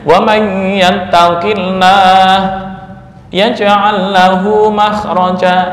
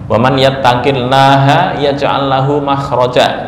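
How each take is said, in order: First: It is recited with a stop inside. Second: It is recited without a break inside.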